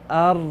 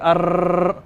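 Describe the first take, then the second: First: The R is a light, buzzing sound. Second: The R is a strong, rolled trill. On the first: The speaker calls it right. "barely enough air to go um, past your tongue" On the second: The speaker calls it wrong. "you're not a, a motorboat. You're not going to say Ar"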